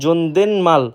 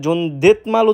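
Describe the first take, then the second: First: An n sound comes before the final syllable. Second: A t sound comes before the final syllable. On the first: The speaker calls it right. "সঠিক উচ্চারণ" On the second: The speaker calls it wrong. "যেটা সম্পূর্ণরূপে ভুল"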